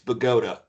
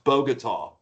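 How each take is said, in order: First: It is said the West Tennessee way. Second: It is said the Colombian way.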